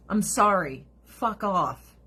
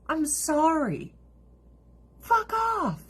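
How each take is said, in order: First: Said in the usual way. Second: Drawn-out, high-pitched dismissal; high, exasperated brush-off. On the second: Real, not acted. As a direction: repeat it way up high, stretching the words. Same dismissal repeated for emphasis.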